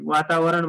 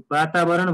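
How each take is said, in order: First: वातावरण spoken as "watabaran", with a w sound at the start; wrong pronunciation shown. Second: वातावरण spoken as "batabaran", with a b sound at the start; correct Nepali pronunciation. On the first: Teacher showing students the wrong way: वातावरण said "watabaran". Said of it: "वातावरण भन्दैनौँ". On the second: Teacher showing students the right way: वातावरण said "batabaran". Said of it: "वातावरण भन्छौँ हामी". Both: Shown as a demonstration.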